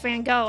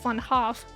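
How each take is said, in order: First: The surname ends with a hard G sound. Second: The surname ends with a soft F sound. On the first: The speaker calls it wrong. "I know it's not pronounced Van Gogh" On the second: The speaker calls it right. "I think it's something more like Van Hoff"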